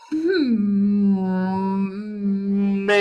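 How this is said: The voice is soft with a whimper.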